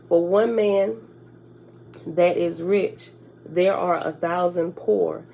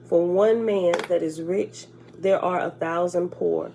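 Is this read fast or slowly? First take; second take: slowly; fast. First: It is read at a slower pace. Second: It is read at a fast pace. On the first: The speaker calls it right. "Let me read that again" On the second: The speaker calls it wrong. "I read it too fast"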